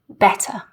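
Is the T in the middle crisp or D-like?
crisp. The middle T is a clean, crisp T. "a really clean, crisp T sound"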